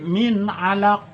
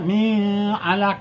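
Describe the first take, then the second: First: The n is pronounced clearly and distinctly. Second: The n is concealed into a nasal sound. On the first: The speaker calls it right. "tapi min alaq. Ya, dibaca jelas" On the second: The speaker calls it wrong. "Jangan dibaca"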